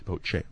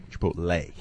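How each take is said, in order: First: "Chipotle" ending in CHAY, said softly; "Chipotle" with a slipped CHAY ending, low and soft; fumbled pronunciation. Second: "Chipotle" ending in LAY, said softly; "Chipotle" low and soft, with a clear LAY ending; correcting pronunciation. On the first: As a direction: quietly garble "Chipotle" as chi-POT-chay. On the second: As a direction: quietly say chi-POT-lay for "Chipotle". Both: Shown as a demonstration. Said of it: "Not Lee".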